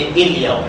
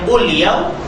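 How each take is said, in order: First: The word starts with an 'i' vowel. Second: The word starts with a 'u' vowel. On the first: "tak boleh baca il-yaw" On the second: "kita tak boleh baca ul-yaw"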